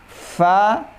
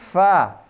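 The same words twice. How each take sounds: First: The lower lip touches the upper front teeth. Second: Both lips alone make the sound, just blowing. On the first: The speaker calls it right. "harus kelihatan gigi atasnya" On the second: The speaker calls it wrong. "nggak boleh hanya memakai bibir... itu bukan dari makhrajnya"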